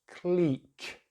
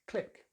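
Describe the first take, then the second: First: The vowel is a long E, British-style. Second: The vowel is a short I, American-style. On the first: "British English, ... We're using that long vowel sound, that E sound" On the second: "Americans just use the short vowel sound, which is I, so they say"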